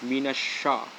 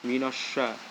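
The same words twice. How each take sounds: The two takes are said the same way.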